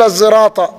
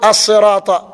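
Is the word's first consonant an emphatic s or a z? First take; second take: z; emphatic s. First: The word is said with a z sound. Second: The word is said with an emphatic s. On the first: "وذا يقول ينطق زاء" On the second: "ينطق صاد"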